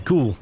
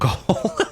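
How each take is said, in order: First: The vowel is a long 'oo' sound. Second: The vowel is a long 'oh' sound. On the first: The speaker calls it right. "Ghoul, I think is how you say it" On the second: The speaker calls it wrong. "not Goal"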